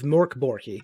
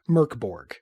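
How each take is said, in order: First: The name is said with a Swedish-style pronunciation. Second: The name is said with an English-style pronunciation.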